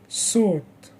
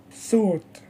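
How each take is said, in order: First: "sought" alone, opening on S; S sound. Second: "thought" alone, opening on TH; TH sound. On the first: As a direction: model "sought" with tongue behind the teeth. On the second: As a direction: model "thought" with tongue between the teeth. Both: Shown as a demonstration. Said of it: "Repeat after me".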